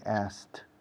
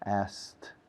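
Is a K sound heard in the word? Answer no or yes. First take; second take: no; no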